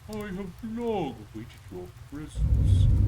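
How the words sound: It is said as a Hermaeus Mora impression.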